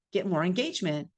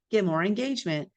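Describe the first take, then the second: No difference in how they are said.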